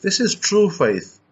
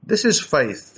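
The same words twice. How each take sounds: First: "This is true faith" said slowly, leaning on "true"; preacher lands "true faith", slow and weighty; slow emphatic stress. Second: Said in the usual way. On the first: Shown as a demonstration. Preacher driving home his point with slow, weighty stress on "true faith".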